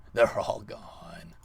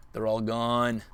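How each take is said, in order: First: Slow, hushed sinister whisper. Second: Louder triumphant call; loud gloat. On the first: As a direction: savor it in a whisper. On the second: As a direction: announce it with glee. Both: Real, not acted. Gloating after wiping lands.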